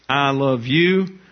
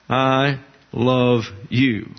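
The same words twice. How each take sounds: First: Slow I love you with the weight on you; I love you with emphasis on the object; stress on you. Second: Slow I love you with the weight on I; I love you with emphasis on the subject; stress on I. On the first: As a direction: land hard on you, drawn out. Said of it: "The object here is imperfect". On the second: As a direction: lean on I, drawn out. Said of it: "The subject is I". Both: Shown as a demonstration.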